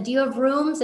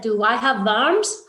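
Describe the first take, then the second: First: Said in the usual way. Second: "worms" said like "verms", rising at the end; imitated mispronunciation. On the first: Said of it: "we said". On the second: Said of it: "this one man kept saying".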